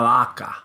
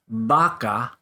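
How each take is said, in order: First: The lips nearly touch for a soft b. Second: The lips close fully for a hard b.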